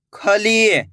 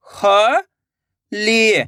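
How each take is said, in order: First: Said in the usual way. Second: Very slow, syllables stretched; slow syllable reading. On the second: Shown as a demonstration. Teacher sounding out a word for children, very slowly. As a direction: draw out each syllable. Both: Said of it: "तो मिलके बन जाएगा".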